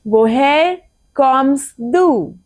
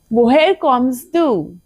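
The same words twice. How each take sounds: First: Very slow, drawn-out repeat. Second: Slow, careful German question; slow model question. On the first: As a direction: stretch every word for the class. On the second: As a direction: model it slowly for learners. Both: Shown as a demonstration.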